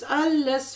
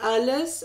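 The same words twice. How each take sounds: First: Alles punched higher and louder; "alles" raised high and loud; stress on alles. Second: Said in the usual way. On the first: A narrator's reading. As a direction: hit "alles" as the climax of the list. List climax repeats alles.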